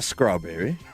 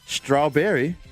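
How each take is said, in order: First: The word begins with an 'skr' sound. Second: The word begins with an 'str' sound. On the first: The speaker calls it wrong. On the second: The speaker calls it right.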